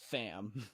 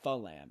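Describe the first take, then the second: First: The L sound is dropped entirely. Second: A vowel is inserted between F and L. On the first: "You don't say fam" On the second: "You don't say falam"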